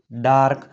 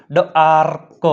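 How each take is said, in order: First: Said in the usual way. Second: ડાર્ક split as ડ-આર-ક; teacher breaking ડાર્ક into sounds; sounded out. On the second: Shown as a demonstration. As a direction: hold the આ of ડાર્ક, detach the ક. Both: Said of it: "એનો ઉચ્ચાર આ થાય છે".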